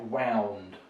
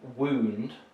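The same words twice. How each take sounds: First: The vowel sounds like 'ow' in cow. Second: The vowel sounds like 'oo' in moon. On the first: It is the past tense of wind. The speaker calls it wrong. "not wound. ... it's the past tense form of wind" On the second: It means an injury. The speaker calls it right. "So we would say wound"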